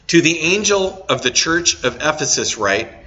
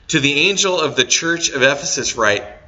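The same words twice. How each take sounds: First: It is read with a strong Southern accent. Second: It is read with a milder, more neutral accent. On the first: The speaker calls it wrong. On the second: The speaker calls it right.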